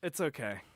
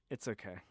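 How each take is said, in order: First: Said in the usual way. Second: Much softer, murmured to himself; calm yourself down under your breath; quiet self-reassurance. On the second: Real, not acted. Reassuring himself after lost recording.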